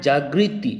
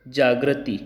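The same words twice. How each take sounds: First: "जागृति" as jaa-gri-ti; correct pronunciation. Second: "जागृति" as jaa-gra-ti, with ra; wrong pronunciation. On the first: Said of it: "गृति होगा". ("जागृति" में साफ़ 'ग्रि' की ध्वनि) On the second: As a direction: say "जागृति" with gra instead of gri. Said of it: "ग के नीचे र लगा रखा है". ("जागृति" को 'जाग्रति' जैसा बोलना) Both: Shown as a demonstration.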